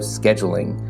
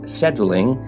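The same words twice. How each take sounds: First: It is said the American way, with a K. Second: It is said the British way, without a K. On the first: "the American K sound of scheduling" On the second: "as it was natural for him, an Englishman"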